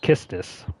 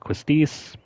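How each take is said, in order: First: The name begins with a plain k sound. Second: The name begins with a kw sound. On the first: This is the supposedly official way to say the name. "quote unquote correct pronunciation is Kistis" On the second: This is the name as many players said it growing up. "you probably grew up calling her Quistis"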